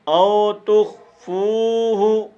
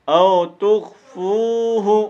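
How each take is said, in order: No difference in how they are said.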